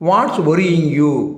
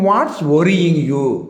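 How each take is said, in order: Both takes have the same delivery.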